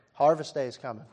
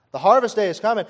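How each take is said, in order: First: Said in the usual way. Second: "harvest" high and loud, rising; loud proclaimed repeat. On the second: Acted. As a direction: shout the promise of harvest. Repeated line building to climax.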